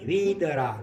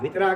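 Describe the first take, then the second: First: The first vowel is long. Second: The first vowel is short. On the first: The speaker calls it right. "વી લંબાવો જરા" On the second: The speaker calls it wrong. "વિતરાગ નહીં"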